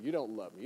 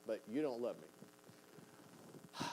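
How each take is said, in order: First: Said in the usual way. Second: "you don't love me" drawn out very slowly, each word leaned on; slow, stressed correction. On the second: Shown as a demonstration. Preacher correcting a quoted accusation, slow and stressed. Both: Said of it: "You don't, not act".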